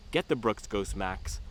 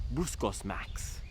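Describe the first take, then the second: First: Said in the usual way. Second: Brooks Ghost Max slow and soft, said as pruss coss max; consonants dropped. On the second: Shown as a demonstration. Reviewer repeating the shoe name, soft and consonant-free. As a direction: blur the hard sounds of Brooks Ghost Max, drawn out. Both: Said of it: "I can't even say Brooks Ghost Max".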